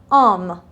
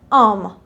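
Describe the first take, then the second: Both takes have the same delivery.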